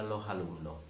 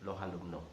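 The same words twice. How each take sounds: First: The final s is dropped or breathy. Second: The same.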